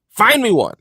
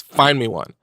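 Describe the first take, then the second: First: Higher, louder dare; louder challenge. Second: Said in the usual way. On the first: Shown as a demonstration. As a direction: throw down the challenge. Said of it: "challenge repeated louder". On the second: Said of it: "challenge repeated".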